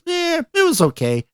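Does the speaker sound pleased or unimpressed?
pleased. It is said brightly, sounding pleased. The speaker liked it. "Hey, he liked it"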